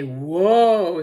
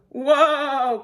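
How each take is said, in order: First: WHOA loud and long, swelling then falling; loud WHOA, only moderately raised in pitch; instructing command. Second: High, loud, alarmed WHOA; high panicky cry of WHOA; cried out. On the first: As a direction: model a big drawn-out WHOA. Demonstrates the word to stop horse. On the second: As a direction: holler WHOA to halt the horse. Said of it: "cried Cowboy McCoy". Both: A narrator's reading.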